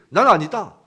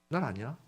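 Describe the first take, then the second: First: It is said in a curt, unfriendly, blunt tone. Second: It is said in a gentle, kindly explaining tone. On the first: The speaker is reluctant and annoyed to answer. "무뚝뚝하고 불친절하고 퉁명스럽게" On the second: The speaker is willing to explain. "뭐 이렇게 자세하게 설명할 수 있잖아요"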